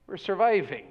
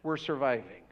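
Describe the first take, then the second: First: Said in the usual way. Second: Quiet weary sigh. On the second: Retold or imitated. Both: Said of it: "They probably would have said".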